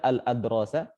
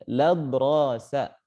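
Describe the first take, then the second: First: The word begins with a full separate al- syllable. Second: The word begins with a merged la- syllable. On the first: The speaker calls it wrong. "Tidak dibaca al-adrosa" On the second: The speaker calls it right. "tapi ladrosa"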